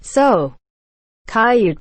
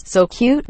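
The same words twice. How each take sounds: First: CUTE stretched toward kai-yood, falling. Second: SO CUTE said normally, higher and rising. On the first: Voicing what the writer means, distorted SO CUTE. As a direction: break CUTE open as kai-yood, higher. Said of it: "you mean me to hear". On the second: Voicing what the reader hears, normal SO CUTE. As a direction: say CUTE as one quick syllable, rising. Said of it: "but all I hear is". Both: Shown as a demonstration.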